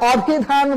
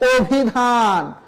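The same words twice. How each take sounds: First: The first vowel is an open 'aw' sound. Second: The first vowel is a closed 'o' sound. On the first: The speaker calls it wrong. "অভিধান বলা যাবে না" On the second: The speaker calls it right. "আমাদের বলতে হবে অভিধান"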